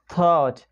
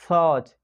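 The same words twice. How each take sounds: The two takes are said the same way.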